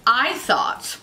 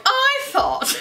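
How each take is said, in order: First: Said in the usual way. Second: Very high, drawn-out squeal; silly mock delivery. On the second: Vlogger mocking how they just said it, silly high voice. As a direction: mimic your own odd high-pitched voice. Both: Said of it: "I don't know why I'm like".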